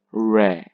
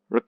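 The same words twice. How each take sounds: First: Re as a long, full REH; stressed syllable. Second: Re as a quick weak ruh; unstressed syllable. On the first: Teacher contrasting syllables, re long and stressed. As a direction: draw out re with an open e. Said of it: "this is stressed". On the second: Teacher contrasting syllables, re short and weak. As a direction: clip re short. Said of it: "This is unstressed". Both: Shown as a demonstration.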